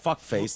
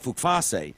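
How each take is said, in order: First: The name is said as plain English 'fuck face'. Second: The name is said as foreign-sounding 'fook-fah-say'. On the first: It sounds openly rude. "That would be rude" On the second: It disguises the rude word. "I would pronounce it Fukfase"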